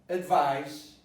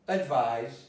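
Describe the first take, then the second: No difference in how they are said.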